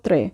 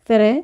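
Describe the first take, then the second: First: The word is said quickly. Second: The word is said slowly. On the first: The speaker calls it right. "তো আমরা একটু ফাস্ট উচ্চারণ করব" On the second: The speaker calls it wrong. "যদি আমরা স্লো উচ্চারণ করি তাহলে ভুল উচ্চারণ হবে"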